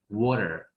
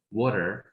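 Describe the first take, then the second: First: It is said in an American accent. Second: It is said in an American accent.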